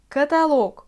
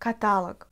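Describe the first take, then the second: First: The stress falls on the final syllable's O. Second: The stress falls on a syllable before the O. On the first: The speaker calls it right. "c'est la voyelle le O qui est frappée par l'accent" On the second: The speaker calls it wrong. "c'est pas du tout correct"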